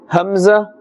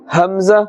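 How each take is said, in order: Both takes have the same delivery.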